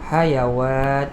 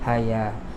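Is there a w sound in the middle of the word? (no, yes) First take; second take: yes; no. First: A w sound is inserted before the final vowel. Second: The word is said without any w sound. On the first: The speaker calls it wrong. "yang mula-mula ngaji dia akan baca hayawat gitu" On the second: The speaker calls it right. "itu bukan hayawat, itu ha, haya"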